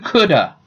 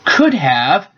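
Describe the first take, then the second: First: The words blend into one reduced word. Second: Both words are said fully and separately.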